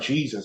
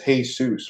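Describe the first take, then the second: First: The name begins with an English J sound. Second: The name begins with an H sound. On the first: The speaker calls it wrong. "it's not Jesus" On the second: The speaker calls it right. "J's a H sound"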